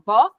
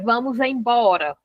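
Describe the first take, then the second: First: Only a single syllable of the phrase is said. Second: The full phrase is said with all syllables. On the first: The most extreme shortened form. "Aí no final" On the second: The complete form nobody uses anymore. "Hoje você não fala assim"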